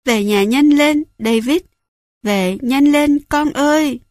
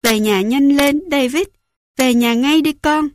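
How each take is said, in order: First: Louder, higher, breaking cry to come home; she's desperate now, pushing harder; frantic sobbing plea. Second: Higher, tearful urgent call home; a mother choking up as she begs; sobbing plea. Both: A narrator's reading. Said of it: "Bà nức nở".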